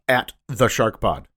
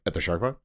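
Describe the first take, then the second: First: It is said slowly and carefully. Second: It is said quickly and rushed.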